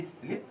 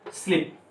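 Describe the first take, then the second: First: स्लीप said softly as "slip", short i; soft, relaxed "स्लीप" with short i. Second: स्लीप with a long ee vowel; "स्लीप" as in English sleep. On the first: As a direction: keep the vowel in स्लीप short and easy. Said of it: "आराम से बोलेंगे". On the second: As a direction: stretch the ee in स्लीप. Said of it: "बड़ी ई की मात्रा". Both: Shown as a demonstration.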